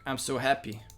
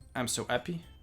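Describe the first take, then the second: First: The h in happy is clearly pronounced. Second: The h in happy is dropped, French-sounding. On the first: The speaker calls it right. "There sh she would pronounce the H, I think" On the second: The speaker calls it wrong. "No, that's more French"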